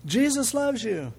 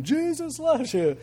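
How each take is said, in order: First: High, slow call of Jesus loves you; lightly acted shout into a mailbox; a higher, drawn-out mock call; mock yell into a mailbox. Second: High, slow booming call, as if through a megaphone; mock booming megaphone voice. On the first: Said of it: "and he goes". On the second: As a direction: imitate the echo of a megaphone. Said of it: "sounded like yelling it through a megaphone".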